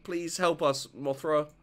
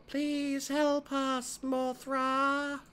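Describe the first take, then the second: First: Said in the usual way. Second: Much higher, very slow, eerie; slow high creepy twin voice. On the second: Acted. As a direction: plead like ghost children. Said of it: "creepy twin shtick".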